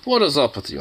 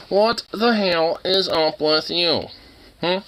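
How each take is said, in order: First: Said in the usual way. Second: Slow, drawn-out exasperated question; exasperated emphasis. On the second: Real, not acted. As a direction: stretch every word at the dog, higher. Repeats question, slowly drawn out.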